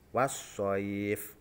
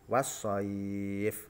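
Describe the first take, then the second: First: The long vowel is held for two beats. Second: The long vowel is held for four beats. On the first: "Sekarang yang coba yang satu alif" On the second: "dua alif contoh"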